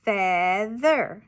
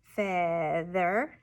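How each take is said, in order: First: "feather" stretched and louder, with a falling end; whole word, drawn out. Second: "Feather" broken into fea and ther; syllable-by-syllable "Feather"; chopped syllables. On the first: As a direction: give "feather" loudly and deliberately. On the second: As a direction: chop "Feather" slowly into two beats, ending up. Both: Shown as a demonstration. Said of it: "the students would chop it".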